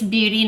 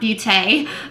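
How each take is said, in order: First: The word ends with a long E vowel. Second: The word ends without a long E vowel. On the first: The speaker calls it right. "I think it's just beauty because it's a long E" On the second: The speaker calls it wrong. "not Beauté"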